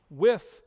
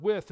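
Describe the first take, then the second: First: With lifted and punched loud; with, held out as the key word; stress on with. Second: Said in the usual way. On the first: Shown as a demonstration. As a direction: land hard on with. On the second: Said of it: "When you look at this word".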